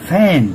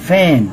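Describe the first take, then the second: Both takes have the same delivery.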